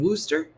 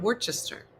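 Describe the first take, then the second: First: The word is shortened, with letters left silent. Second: Every written letter of the word is sounded. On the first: The speaker calls it right. "it's pronounced Worcester" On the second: The speaker calls it wrong. "how are you going to take the R, the C, the H"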